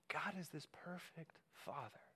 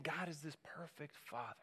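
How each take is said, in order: First: Breathy whispered repeat. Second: Soft and intimate, barely above a murmur; hushed. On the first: Preacher whispering Jesus' words to the congregation. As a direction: whisper it like you're leaning in close. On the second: Preacher voicing Jesus to the congregation, hushed. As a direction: say it gently, as a secret truth. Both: Acted.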